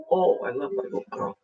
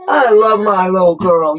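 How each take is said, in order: First: Soft whispered love to the pet; whispered affection. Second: Louder, fond declaration to the pet; louder affection. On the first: Whispering love to her pet Cassie, soft. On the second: Telling her pet Cassie she loves her, louder. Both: Real, not acted.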